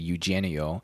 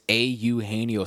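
First: The name is said quickly and plainly. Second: The name is slowly drawn out and over-enunciated. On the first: "If you were just speaking in old-timey, good old-fashioned American English, it'd be Eugenio" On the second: "But no, this is Eugenio Suarez"

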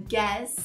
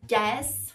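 Both takes have the same delivery.

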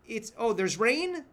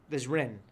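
First: The vowel in rain sounds like rayn. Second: The vowel in rain sounds like ren.

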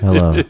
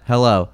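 First: It is said in a dropped, low voice. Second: It is said in her normal voice.

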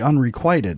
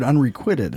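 First: The vowel in 'quit' is a long 'eye' sound. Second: The vowel in 'quit' is a short 'ih' sound. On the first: This is how the spelling suggests it is said. "the way it's spelled would be unrequited" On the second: This is how it is commonly heard said. "But I've always heard unrequited"

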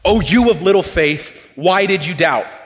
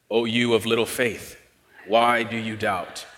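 First: It is said in an angry tone. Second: It is said flatly with no emotion.

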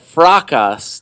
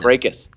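First: The word ends like the word podcast. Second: The word ends without a podcast-like sound. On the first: "to make it sound more like podcast" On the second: "It's fracas"

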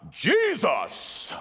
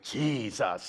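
First: The name is said loudly, almost shouted. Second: The name is said with strained intensity. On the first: They hope more volume will make it work. "Let's try it a little louder" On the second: They hope more intensity will make it work. "say it a little more intensely"

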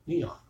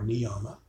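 First: The word ends on the consonant m. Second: The word ends with an extra final vowel. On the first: The speaker calls it right. "but niyam" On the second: The speaker calls it wrong. "or niyama"

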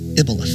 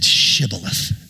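First: The word begins without any sh sound. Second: The word begins with a clear sh sound. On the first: The speaker calls it wrong. "if they couldn't say shibboleth, they said ibboleth" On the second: The speaker calls it right. "they made them say shibboleth"

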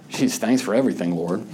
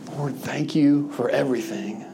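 First: It sounds sarcastic and annoyed. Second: It sounds sincerely grateful.

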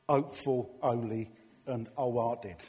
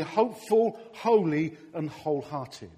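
First: The H sounds at word starts are dropped. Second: The H sounds at word starts are pronounced.

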